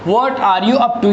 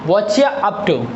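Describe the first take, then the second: First: Each word of 'what are you' is said separately. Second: 'What are you' blends into one short 'whatcha'.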